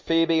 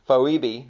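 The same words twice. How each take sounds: First: The O is silent in the name. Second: The O is sounded as its own vowel. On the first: The speaker calls it right. "the O I believe is silent" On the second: The speaker calls it wrong. "When I was younger, I used to try to say it Phoebe"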